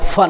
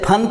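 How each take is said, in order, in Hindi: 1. यह "फ़" ध्वनि से शुरू होता है। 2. यह महाप्राण "प" ध्वनि से शुरू होता है। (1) "नुक्ता लग गया तो फ" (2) "पहले फन था"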